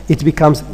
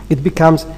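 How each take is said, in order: No difference in how they are said.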